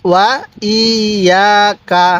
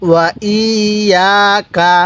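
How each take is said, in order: Both takes have the same delivery.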